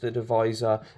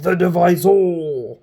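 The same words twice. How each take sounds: First: It is said plainly, without drama. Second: It is said dramatically and aggressively. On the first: "as opposed to just the divisor" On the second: "sounds aggressive and like it's going to cut you up"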